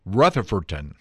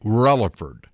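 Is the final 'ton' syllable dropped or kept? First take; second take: kept; dropped. First: The name keeps its final ton syllable. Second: The name drops its final ton syllable. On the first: This follows the spelling. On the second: This is how locals say it.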